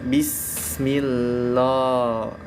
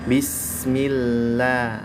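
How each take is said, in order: First: The letters are pronounced with a thick sound. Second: The letters are pronounced with a thin sound. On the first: The speaker calls it wrong. "jangan dibaca bismillah" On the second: The speaker calls it right. "dia harus bismillah"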